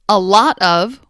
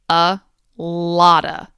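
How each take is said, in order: First: The word 'of' is pronounced fully and separately. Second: The word 'of' shrinks to a weak 'a' sound.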